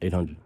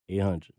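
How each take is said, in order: First: It is said quickly and casually. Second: It is said slowly and deliberately.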